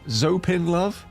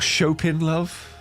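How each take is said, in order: First: The name starts with a z sound. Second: The name starts with a ch sound.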